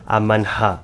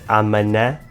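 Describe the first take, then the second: First: The h is breathed out after the n. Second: The h is silent, leaving a plain n. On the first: "pronunciá-lo como se pronuncia em inglês e alemão" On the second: "achar que o H é mudo e dizer amanhã"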